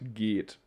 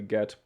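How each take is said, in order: First: The vowel is long and stretched. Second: The vowel is short and clipped. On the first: The speaker calls it right. "You will just stretch the E" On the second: The speaker calls it wrong. "so that we don't say get"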